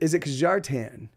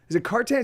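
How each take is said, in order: First: The name is said with a J sound. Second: The name is said without a J sound.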